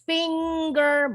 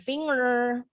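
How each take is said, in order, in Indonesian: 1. Bunyi g keras mengikuti bunyi ng. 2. Tidak ada bunyi g keras setelah bunyi ng. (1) "bunyi N G-nya jadi double eh, G-nya"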